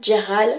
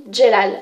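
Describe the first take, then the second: First: Jeral said with a French r in the middle, zhe-RAL. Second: Jelal said with a clear l in the middle, zhe-LAL; name spoken Jelal, light l before the final syllable. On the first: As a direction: say the name as Jeral, r sound not l. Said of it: "comme vous voulez". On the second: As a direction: say the name as Jelal, l sound not r. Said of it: "Moi, je dis plutôt Jelal". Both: Shown as a demonstration.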